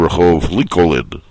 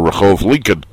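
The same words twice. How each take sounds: First: The second L in Lincoln is clearly pronounced. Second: The second L in Lincoln is silent. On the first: The speaker calls it right. "You have to say" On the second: The speaker calls it wrong. "they don't accept the silent L in Lincoln"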